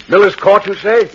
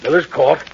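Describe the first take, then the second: First: Louder, higher, excited repeat; raised voice of sudden realization; startled recognition. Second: Said in the usual way. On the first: Acted. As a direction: pounce on the name in surprise. Inspector suddenly recognizes the address.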